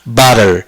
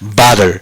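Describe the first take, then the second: First: It is said in an American accent. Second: It is said in an American accent.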